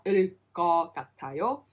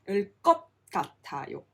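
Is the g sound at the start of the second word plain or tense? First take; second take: plain; tense. First: The g sound is plain and single. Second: The g sound is tense and doubled. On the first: The speaker calls it wrong. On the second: The speaker calls it right. "it's a double G sound"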